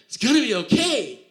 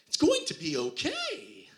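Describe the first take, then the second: First: It is said earnestly in a normal voice. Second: It is said in a Disney-character voice.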